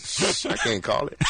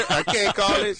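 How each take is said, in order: First: Hushed secret whisper. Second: High, laughing repeat. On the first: To the host, a whispered catchphrase. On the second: To the host, laughing as he repeats the phrase. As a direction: laugh through the catchphrase. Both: Real, not acted.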